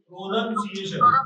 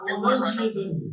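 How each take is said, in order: First: The second syllable sounds like 'noun'. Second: The second syllable sounds like 'nun'. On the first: The speaker calls it wrong. "ઉચ્ચાર જ ખોટો કરતા હોય ઘણા બધા" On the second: The speaker calls it right. "એનો સાચો ઉચ્ચાર શું છે"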